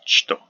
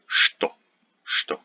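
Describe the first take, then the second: First: Что said "chto"; hard "ch" opening on что, as "chto"; weird "ch" pronunciation. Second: Что said "shto"; usual "shto" pronunciation. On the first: Teacher imitating some people, что oddly said "chto". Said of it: "it sounds a little bit weird". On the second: Teacher modelling what most people say, что as "shto". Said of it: "most of us pronounce it". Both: Shown as a demonstration.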